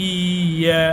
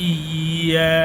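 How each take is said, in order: The two takes are said the same way.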